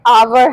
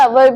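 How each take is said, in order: First: The first vowel is long. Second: The first vowel is short. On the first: The speaker calls it right. "आवर house" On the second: The speaker calls it wrong. "कई लोग अवर बोलते हैं, अवर भी नहीं है"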